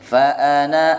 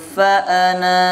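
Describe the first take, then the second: First: The final vowel is short, running straight on. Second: The final vowel is long, then a stop. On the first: The reading continues without stopping. "Kalau diulang lagi berarti bacanya pendek" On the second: The reading stops on this word. "kalau berhenti pas di kata yang ada tanda nolnya itu dibaca panjang"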